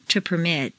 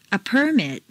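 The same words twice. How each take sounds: First: PerMIT, stressed on the second syllable. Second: PERmit, stressed on the first syllable. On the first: Teacher models verb "permit", second-syllable stress. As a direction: hit MIT in "permit". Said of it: "to the second syllable". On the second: Teacher models noun "permit", first-syllable stress. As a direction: hit PER in "permit". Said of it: "first syllable for nouns". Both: Shown as a demonstration.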